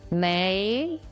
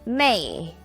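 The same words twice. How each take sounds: First: The pitch rises from middle to high. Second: The pitch falls sharply from high to low.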